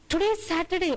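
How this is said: It is said in an alarmed, sudden-realization tone. Something planned for today was forgotten. "oh, I forgot to do something I was supposed to do for today"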